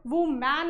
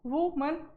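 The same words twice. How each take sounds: First: वुमैन with a long open a at the end; wrong woman. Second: वुमन said woo-mun, short final vowel; correct woman. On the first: Teacher showing the wrong way to say woman. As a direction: say वुमैन drawn out as the wrong form. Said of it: "वुमैन नहीं बोला जाएगा". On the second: Teacher showing the right way to say woman. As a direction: say वुमन with a light mun ending. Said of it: "वुमन बोला जाएगा". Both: Shown as a demonstration.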